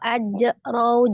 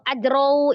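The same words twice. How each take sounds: First: The word has a break inside it. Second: The word is rushed through too quickly. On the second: "terlalu cepat"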